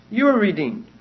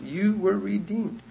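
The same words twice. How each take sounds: First: Emphatic "were", held long; stress on were. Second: "You were redeemed" slowed, with weight on "You"; slow and deliberate with "You" stressed; slow emphasis on you. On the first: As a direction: punch "were" firmly, like declaring a fact. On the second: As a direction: lean on "You", drawn out and held back. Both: Shown as a demonstration.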